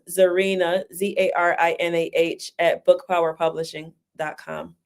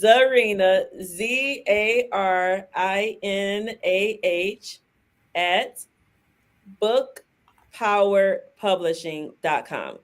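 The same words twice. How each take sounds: First: It is said fast. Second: It is said slowly.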